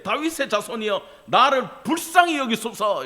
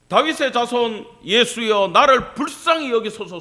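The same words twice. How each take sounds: First: High, insistent plea; crying out louder. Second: Crying out. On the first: Beggar calling to Jesus despite being hushed, crying out harder. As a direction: push the cry out, rising in force. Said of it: "그가 더욱 크게 소리 질러 이르되". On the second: Blind beggar crying out to Jesus over the crowd, shouting. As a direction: call out loudly for mercy. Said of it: "소리를 친 거야". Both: Acted.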